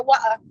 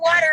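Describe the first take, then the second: First: British "water" with the r dropped; put-on British glottal "water"; British accent. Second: Said in the usual way. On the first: Shown as a demonstration. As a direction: say "water" as "wa'uh", British style. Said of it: "I definitely would have said water". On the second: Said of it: "I wish you would have threw the word water in there".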